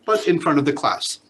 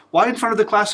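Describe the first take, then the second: First: Said in the usual way. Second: "Why in front of the class?" asked with a high lift, "class" higher than the rest; teacher's rhetorical question pitched up. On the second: Shown as a demonstration. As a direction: raise the pitch as if posing the question to the room.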